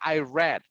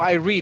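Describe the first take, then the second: First: The word read rhymes with bed. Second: The word read rhymes with need. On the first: The reading happened in the past. "pronunciation is like the color" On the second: The reading happens in the present. "if it is in present"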